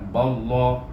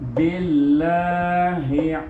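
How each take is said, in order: First: The L sound is heavy and thick. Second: The L sound is light and thin. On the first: "Kalau tebal ballah, eh, itu tebal bunyinya" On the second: "Perhatikan tadi kita baca nipis saja"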